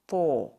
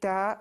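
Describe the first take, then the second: First: The syllable has a full-mouthed, heavy vowel. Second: The syllable has a thin, light vowel. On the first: The speaker calls it right. "full mouth pronunciation" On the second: The speaker calls it wrong. "We're not going to say ta"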